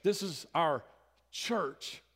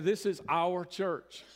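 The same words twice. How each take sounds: First: Pause, then hit "church" high; stress on CHURCH. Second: Slow, loud emphasis on "our"; stress on OUR. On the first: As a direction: set "church" apart as its own emphatic word. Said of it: "put emphasis on that last word". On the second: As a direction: lean hard and long on "our". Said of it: "emphasis there on the word our". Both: Shown as a demonstration.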